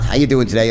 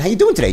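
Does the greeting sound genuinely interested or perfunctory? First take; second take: perfunctory; genuine. First: It sounds flat, routine and uninterested. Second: It sounds warm, engaged and genuinely interested. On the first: The asker does not care about the answer. The speaker calls it wrong. "not how you doing today" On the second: The asker really wants to know the answer. The speaker calls it right. "bottled enthusiasm"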